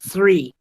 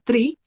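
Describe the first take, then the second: First: The first sound is airy, breath between tongue and teeth. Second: The first sound is a hard d-like stop. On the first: The speaker calls it right. "suena cuando yo dejo pasar aire entre mi lengua y los dientes de arriba" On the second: The speaker calls it wrong. "yo no puedo decir three"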